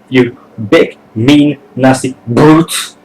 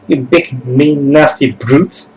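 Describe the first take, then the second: First: The word brute gets strong emphasis. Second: The word brute gets little emphasis.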